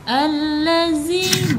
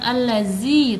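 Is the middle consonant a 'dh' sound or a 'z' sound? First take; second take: dh; z. First: The middle consonant is a soft 'dh' sound. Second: The middle consonant is a buzzing 'z' sound. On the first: The speaker calls it right. "Alladzi bukan allazi tapi alladzi" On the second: The speaker calls it wrong. "kadang ketukar dengan huruf za"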